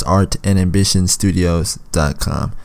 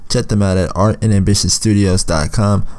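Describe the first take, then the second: First: Slow, careful repeat of the address. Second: Said in the usual way. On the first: Shown as a demonstration. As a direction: spell the address out slowly. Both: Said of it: "Once again".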